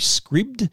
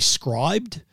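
First: The word has a short i, like 'scribbed'. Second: The word has a long i, like 'scribed'. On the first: The name is read as spelled, without an E. "I thought it might be Scribd because there's no E" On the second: The name is read as if it had an E. "If you had the E in it, it'd be Scribd"

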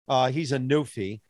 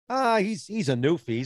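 First: It is said in a contemptuous, belittling tone. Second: It is said in a warm, friendly tone. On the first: The person is being insulted. "that was totally derogatory" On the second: The person is being described affectionately. "As opposed to, he's a newfie. He's a real good guy"

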